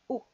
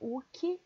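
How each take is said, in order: First: The final k is held and not released. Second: The final k is released with an added vowel. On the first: The speaker calls it right. "Você finge que vai fazer o K, mas você não faz" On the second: The speaker calls it wrong. "não é Uki"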